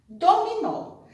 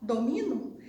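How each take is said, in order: First: DOMINÓ with a high, strong final NÓ; stress on final NÓ. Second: DOMINO with MI stressed and final no weak. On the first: Teacher reading the accented word, stress on NÓ in Dominó. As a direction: hit the last syllable of Dominó. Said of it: "a tia vai tirar o acento". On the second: Teacher reading the word without accent, stress on MI in domino. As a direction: say domino as do-MI-no, questioning. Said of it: "Sem acento". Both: Shown as a demonstration.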